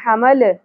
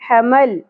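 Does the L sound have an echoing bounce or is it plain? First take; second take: bouncing; plain. First: The L is released with an echoing bounce. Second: The L is held plainly without any bounce. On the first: The speaker calls it wrong. "لام ساکن جہاں کہیں بھی آئے وہاں پہ قلقلہ نہیں کرنا، حمل نہیں پڑھنا" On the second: The speaker calls it right. "کس طرح پڑھیں گے؟"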